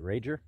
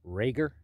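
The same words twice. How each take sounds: First: Rager with a soft g, like a j; soft-g pronunciation. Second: Rager with a hard g, louder; hard-g pronunciation. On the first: Hiker wondering how the mountain is pronounced, soft-g Rager. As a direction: say Rager as RAY-jer, questioning. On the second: Hiker testing another way to say the mountain's name, hard-g Rager. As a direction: try Rager as RAY-gher, rising like a question. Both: Shown as a demonstration. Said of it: "I guess it's pronounced Rager".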